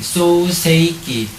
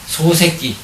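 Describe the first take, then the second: First: The word is said slowly, every syllable full. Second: The word is said quickly, its syllables shortened.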